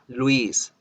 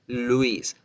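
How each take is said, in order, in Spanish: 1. La L se hace con la lengua plana y ancha. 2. La L se hace con los labios redondeados, y suena más oscura. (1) "en español la lengua normal se ensancha" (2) "En inglés se engruesa la, la, se redondea la boca"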